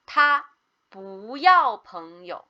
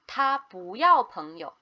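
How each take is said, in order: First: The sentence is said at a slower pace. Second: The sentence is said at a faster pace.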